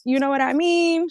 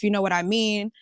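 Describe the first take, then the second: First: High-pitched mimicking voice; Messy [name] voice. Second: Said in the usual way. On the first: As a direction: put on a much higher voice, like a playful impression. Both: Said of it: "In my Messy [name] voice".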